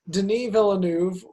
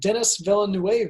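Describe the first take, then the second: First: The first name is said the original way. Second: The first name is said like English Dennis. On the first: The speaker calls it right. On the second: The speaker calls it wrong.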